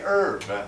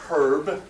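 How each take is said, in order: First: The word begins without an h sound. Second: The word begins with an h sound. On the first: "They say herb. ... They drop the H's" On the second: "They do not say herb"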